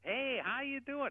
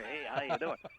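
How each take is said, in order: First: Warm and natural, with an audible smile. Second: Put-on, exaggerated radio announcer voice. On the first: The speaker sounds happy and friendly. The speaker calls it right. "you hear that smile in my voice?" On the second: The speaker sounds artificial and unnatural. The speaker calls it wrong. "they call it Ron Radio"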